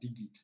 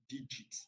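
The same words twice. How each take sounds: First: The g is hard, as in leg. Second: The g is soft, as in judge. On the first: The speaker calls it wrong. "this is not pronounced as" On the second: The speaker calls it right. "it is pronounced as"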